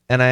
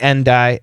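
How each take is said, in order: First: The D of 'and' is dropped. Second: The D of 'and' is clearly pronounced. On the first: "Really tough to hear the D" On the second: "we can keep it"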